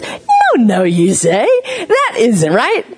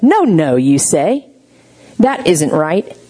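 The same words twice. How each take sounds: First: High, playful sing-song "no, no"; said differently, gently. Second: Firm, correcting "no, no"; upsetting firm tone. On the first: Shown as a demonstration. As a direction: coo the correction to a baby. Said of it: "We say it like this". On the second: Retold or imitated. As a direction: correct them plainly and firmly. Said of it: "my tone upset her".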